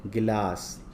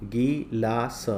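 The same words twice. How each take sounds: First: Said in the usual way. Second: Slow गी-ला-स; syllable by syllable. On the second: Shown as a demonstration. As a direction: read गिलास out in separate long syllables. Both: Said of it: "पहले पढ़ लेते हैं".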